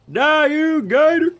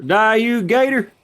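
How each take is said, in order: First: Even higher, slower screech; shrieking battle cry. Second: High shout at the gator; battle yell. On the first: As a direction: stretch the scream out, higher. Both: Real, not acted. Attacking an alligator in game.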